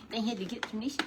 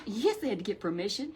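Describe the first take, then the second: First: Lightly higher, fast puppet voice. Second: Said in the usual way. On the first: Acted. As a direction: puppet repeats the point.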